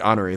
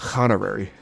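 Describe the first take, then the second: First: The word starts with a vowel, no h sound. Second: The word starts with an added h sound. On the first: "They don't say honorary" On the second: "They say honorary. The silent H's get H's"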